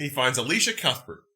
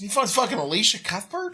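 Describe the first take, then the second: First: "Alicia Cuthbert" stated with a fall, stress on "Alicia"; matter-of-fact, falling on "Cuthbert"; flat confirmation. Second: "Alicia Cuthbert?" asked with a rise at the end; incredulous, tune going up on "Cuthbert"; disbelieving question. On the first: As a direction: confirm it plainly, dropping at the end. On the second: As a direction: ask it as if you can't believe it, rising on "Cuthbert". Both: Real, not acted.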